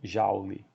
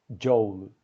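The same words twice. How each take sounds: First: The vowel is read as an open a. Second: The word has its English pronunciation. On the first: "no Brasil é muito comum as pessoas falarem Joule. Lê o O U como se fosse um A aberto" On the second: "E é assim que se pronuncia em inglês"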